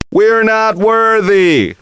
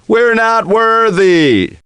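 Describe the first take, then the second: First: High, slow, chanted bowing cry; hammed-up chant of adoration; mock worship. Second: High, slow, chanted bowing cry; hammed-up chant of adoration; mock worship again. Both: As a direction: grovel theatrically before the champ.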